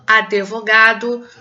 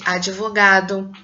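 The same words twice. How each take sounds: First: Advogado with an extra E, a-de-vo-ga-do; mispronounced advogado. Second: Advogado with a short linking I after the D, ad(i)-vo-ga-do; correct advogado. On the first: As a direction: slowly sound out advogado wrongly as "adevogado". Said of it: "as pessoas pronunciam as palavras incorretamente". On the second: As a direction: say advogado as "adivogado", no E sound. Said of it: "ao invés de". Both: Shown as a demonstration.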